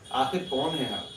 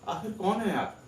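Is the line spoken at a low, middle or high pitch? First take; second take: low; high. First: It is spoken on the lowest note. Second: It is spoken on the highest note.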